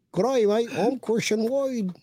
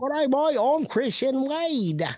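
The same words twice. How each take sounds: First: Mock Australian accent. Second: High-pitched, drawn-out bad British accent; botched British accent. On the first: Host repeating his accent for co-host on request, high mock Australian. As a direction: stretch the vowels in a high Australian twang. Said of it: "do your Australian accent too". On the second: Host showing co-host his shaky accent, high hammed-up British. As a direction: do a poor British accent that slides into Australian. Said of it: "That's his British accent".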